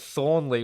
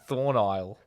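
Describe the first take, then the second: First: The name ends with a 'lee' sound. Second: The name ends with an 'isle' sound. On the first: The speaker calls it right. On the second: The speaker calls it wrong.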